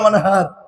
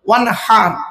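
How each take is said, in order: First: The h sound is a plain, light h. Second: The h sound comes deep from the throat. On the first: It means to dig a canal. The speaker calls it wrong. "আর আমরা কি বলি উচ্চারণ করতে গিয়ে?" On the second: It means to offer a sacrifice. The speaker calls it right. "এই গলার ভেতর থেকে হ্যাঁ এটা উচ্চারণ করবেন"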